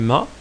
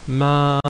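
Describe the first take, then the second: First: The vowel is short. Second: The vowel is held longer.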